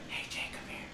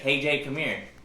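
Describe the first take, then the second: First: It is spoken in a whisper. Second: It is spoken in a normal voice.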